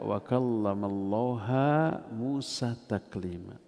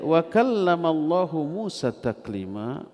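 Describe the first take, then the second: First: The word for God ends in an 'a' vowel. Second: The word for God ends in a 'u' vowel. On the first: Moses is the one who speaks to God. The speaker calls it wrong. "Allahnya dibaca ha mansub karena dia maf'ulun bih" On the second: God is the one who speaks to Moses. The speaker calls it right. "artinya Allah berbicara kepada Nabi Musa"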